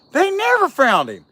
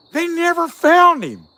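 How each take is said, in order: First: "never" punched high and loud; stress on never. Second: Slow, high and loud on "found"; slow emphatic. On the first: Vlogger repeating his complaint, stressing never. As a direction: hit "never" in "They never found him.". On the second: Vlogger complaining the show never found Bigfoot, slow emphatic. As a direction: drag out "They never found him." hitting "found". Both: Shown as a demonstration.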